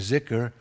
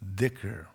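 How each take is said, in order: First: The word is said in Urdu-Farsi pronunciation. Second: The word is said in Arabic pronunciation. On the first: "Just like we say zikr" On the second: "if you were in Saudi Arabia some Arabic countries, they'd look at you like, excuse me"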